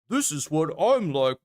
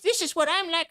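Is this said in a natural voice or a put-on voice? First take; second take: natural; put-on. First: It is said in a natural, confident voice. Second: It is said in a put-on, mocking voice. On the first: The speaker presents himself as strong. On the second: The speaker mocks someone as weak.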